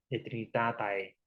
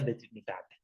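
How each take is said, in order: First: The ending is sounded as two vowels, a then e. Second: The ending is sounded as a single e vowel. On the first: This follows the written spelling. "Se escribe así" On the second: This is how it is actually pronounced. "se pronuncia de Trinitate"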